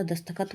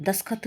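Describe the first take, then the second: First: दस्तखत with the middle t sounded; correct pronunciation. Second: दस्तखत with the middle t dropped, das-khat; wrong pronunciation. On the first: Teacher correcting the word, दस्तखत as dast-khat. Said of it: "होता है". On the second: Teacher showing the error, दस्तखत as das-khat. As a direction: skip the first t of दस्तखत. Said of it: "नहीं होता". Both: Shown as a demonstration.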